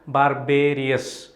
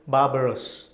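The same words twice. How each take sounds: First: It is said the way 'barbarian' begins. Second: It is said unlike the way 'barbarian' begins. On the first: The speaker calls it wrong. "you pronounce barbarous as in the same lines as barbarian" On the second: The speaker calls it right. "it is barbarous"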